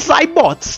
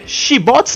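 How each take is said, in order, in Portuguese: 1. A palavra começa com som de z. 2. A palavra começa com som de sh. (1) "ele tem som de Z e o Y é I. Então deve ser Zybots" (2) "ou seria Shibots? Não"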